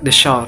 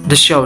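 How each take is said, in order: First: The vowel in 'show' sounds like 'shore'. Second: The vowel in 'show' is plain standard.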